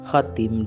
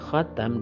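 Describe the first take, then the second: First: The vowel after the t is 'i'. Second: The vowel after the t is 'a'. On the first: It means the seal of the prophets. "dengan huruf ta yang dikasroh" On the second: It means the last of the prophets. "dengan huruf ta yang di fathah"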